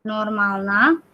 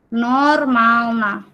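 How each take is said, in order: First: "normalna" with a rising end; pronunciation demo. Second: "normalna" at half speed, falling end; slow pronunciation demo. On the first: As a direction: say "normalna" less stretched, tune going up. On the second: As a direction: stretch both first syllables of "normalna". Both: Shown as a demonstration. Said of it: "Ini bacanya".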